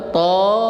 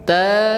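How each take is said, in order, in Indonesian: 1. Vokalnya adalah bunyi o membulat. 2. Vokalnya adalah bunyi a terbuka.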